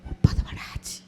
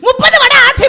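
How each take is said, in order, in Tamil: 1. மெதுவாகச் சொல்லப்பட்டது. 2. சத்தமாகச் சொல்லப்பட்டது.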